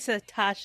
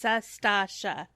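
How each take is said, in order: First: The name is said without an s before t. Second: The name is said with an s before t. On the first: The speaker calls it wrong. "You say Satasha" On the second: The speaker calls it right. "It's Sastasha"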